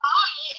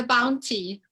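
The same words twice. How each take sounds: First: British "Bounty" with the t dropped; loud British "Bou'y"; British accent. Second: Said in the usual way. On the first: Shown as a demonstration. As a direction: punch "Bounty" high and loud, no t, British-style. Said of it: "very British in a British accent". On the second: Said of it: "it's a bounty".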